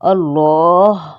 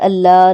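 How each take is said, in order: First: The L is said thick and heavy. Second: The L is said thin and light. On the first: The speaker calls it right. "Bold मोटा पड़ा जाएगा" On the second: The speaker calls it wrong. "नहीं"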